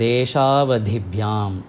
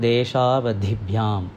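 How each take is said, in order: The two takes are said the same way.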